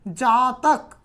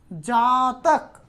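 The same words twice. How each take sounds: First: Said in the usual way. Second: जातक drawn out very slowly, syllable by syllable; slow, careful जातक for the learners; slowly sounded out. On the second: Shown as a demonstration. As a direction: stretch जातक so the ending अक is clearly heard. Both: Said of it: "देखिए यहाँ आप उच्चारण भी करते हो".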